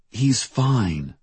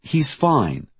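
First: Higher-pitched reassurance with a falling end; insistent reassurance. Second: Higher, more emphatic reassurance; insistent repetition. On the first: Diane reassuring Trin about the missing boy, insistent. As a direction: reassure firmly, pitch lifted. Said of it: "Diane said to Trin". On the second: Diane trying to make it more true, insistent. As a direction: insist on it, pitch jumping then falling. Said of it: "as if that made it more true". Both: A narrator's reading.

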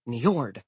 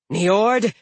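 First: Said in the usual way. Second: High, loud furious call of the name Niord; angry shout. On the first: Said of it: "that's his name". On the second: Acted. Giantess confronts the god.

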